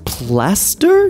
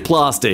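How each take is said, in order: First: It is said in a neutral, American-like accent. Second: It is said in an Australian accent. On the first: "I've developed a habit of speaking in a more neutral, almost American slash Australian accent as I read these" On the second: "I want to say plaster because of my Australian roots"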